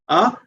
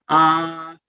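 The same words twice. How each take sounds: First: The vowel is held for one short beat. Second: The vowel is held for three beats. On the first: "one t is the time" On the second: "three time factor"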